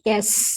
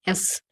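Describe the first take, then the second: First: It begins with a y sound. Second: It begins with a plain vowel. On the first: The speaker calls it wrong. "हो गया गलत।" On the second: The speaker calls it right. "यस नहीं है"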